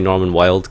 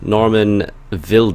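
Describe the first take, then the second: First: The surname is said like the English word wild. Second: The surname is said with a German pronunciation. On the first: This is a casual pun on the word wild. "you guys can just say Norman Wild because he's he's absolutely wild" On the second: This is the proper pronunciation of the name. "I think is how you say it properly in German"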